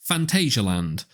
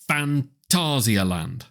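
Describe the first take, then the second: First: The name is pronounced in a non-German way. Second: The name is pronounced the German way. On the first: The speaker calls it wrong. "a lot of people will say Phantasialand, and that's just not right" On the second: The speaker calls it right. "The Germans pronounce it Phantasialand"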